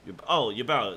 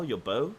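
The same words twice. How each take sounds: First: "bow" said like cow, as in bowing; "bow" rhyming with now. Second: "bow" said with long o like arrow bow; "bow" rhyming with go. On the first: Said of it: "the fact she bowed". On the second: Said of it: "pronounced differently". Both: Shown as a demonstration.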